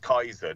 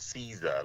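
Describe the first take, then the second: First: The word begins with a K sound. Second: The word begins with an S sound. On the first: This is the original form. The speaker calls it right. "it's Kaiser" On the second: This is the anglicized form. The speaker calls it wrong. "not Caesar"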